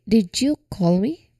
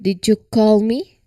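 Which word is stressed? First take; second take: you; call. First: The word you carries the stress. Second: The word call carries the stress. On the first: The question is about who made the call. "the first sentence where we emphasize the word you" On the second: The question is about what action was done. "we emphasize here the word call"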